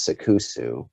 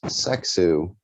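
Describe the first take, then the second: First: "Sekusu" in three syllables, se-KOO-soo; corrected Japanese pronunciation. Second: "Sexu" in two syllables, no vowel after the k; mispronounced Japanese word. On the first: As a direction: say "Sekusu" with a clear u after the k. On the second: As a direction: say "Sexu" run together as SEK-su. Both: Retold or imitated. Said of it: "technically it's Sekusu".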